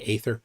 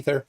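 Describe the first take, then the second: First: The first vowel sounds like 'ay'. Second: The first vowel sounds like 'ee'.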